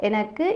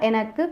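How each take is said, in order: No difference in how they are said.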